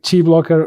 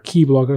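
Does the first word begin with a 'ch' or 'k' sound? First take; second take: ch; k. First: The first word begins with a 'ch' sound. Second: The first word begins with a 'k' sound.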